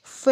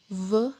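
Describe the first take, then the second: First: V said as "fay", like the alphabet name; letter-name pronunciation. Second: V as a buzzed "vuh"; vibrating V sound. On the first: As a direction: say V as "fé", without buzz. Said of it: "Jadi bukan V". (V dibaca "fe" seperti nama huruf) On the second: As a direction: say V with throat vibrating and mouth rounded. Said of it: "tapi pengucapannya V dengan ada getaran". (bunyi V bergetar dari tenggorokan, mulut dibulatkan) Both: Shown as a demonstration.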